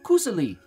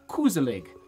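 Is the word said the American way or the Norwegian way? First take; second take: Norwegian; American. First: It is said in the Norwegian way. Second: It is said in an Americanized way. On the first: The speaker calls it right. "It's actually pronounced Koseli" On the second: The speaker calls it wrong. "that's how we say it in America"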